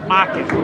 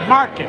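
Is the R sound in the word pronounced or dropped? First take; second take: dropped; pronounced. First: The R sound is dropped entirely. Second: The R sound is pronounced clearly. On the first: "We say market" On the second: "we don't say market"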